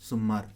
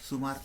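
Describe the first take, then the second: First: The m sound is held long, doubled. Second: The m sound is short, single. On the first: "इथे doubling म" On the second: "फक्त सुमार अशाच पद्धतीने"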